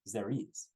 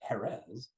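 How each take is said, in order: First: The name is said with French pronunciation. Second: The name is said with Spanish pronunciation. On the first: "then the French get involved, and all of a sudden you get the pronunciation" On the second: "Jerez de la Frontera"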